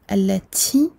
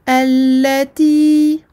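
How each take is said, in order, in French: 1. Le son t n'est pas pur. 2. Le son t est pur et net. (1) "On a tendance à prononcer allati. Allati, c'est incorrect" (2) "essayez d'épurer le ta"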